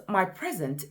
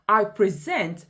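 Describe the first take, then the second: First: "present" as a noun, stressed PREsent; weight on PRE in "my present"; "my PREsent", second syllable light; stress on first syllable. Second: "present" as a verb, stressed preSENT; "I preSENT", weight on the last syllable; stress on second syllable. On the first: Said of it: "is the gift I'm giving". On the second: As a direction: punch SENT in "I present". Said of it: "is doing the action". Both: Shown as a demonstration.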